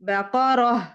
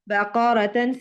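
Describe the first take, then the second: First: The word ends with an h sound. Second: The word ends with a tan syllable. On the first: The reader stops on this word. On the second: The reading continues without stopping.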